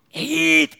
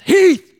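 First: The name is said somewhat louder. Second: The name is said loudly, almost shouted.

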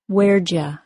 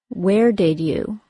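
First: The words blend into a short contracted form. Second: Each word is said fully and separately. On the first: "then as a contraction"

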